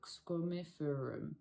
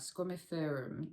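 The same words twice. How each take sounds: First: Squamiferum said slowly, syllable by syllable, ending on a questioning rise; careful retry. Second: Squamiferum said quickly as a first guess; first try at a plant name. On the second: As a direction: try Squamiferum casually, unsure. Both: Shown as a demonstration. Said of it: "am I saying that right?".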